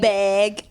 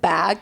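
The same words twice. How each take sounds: First: The vowel is said in a Canadian way. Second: The vowel is said in a non-Canadian way. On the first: "Canadians say like ... they say like" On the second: "instead of saying like bag"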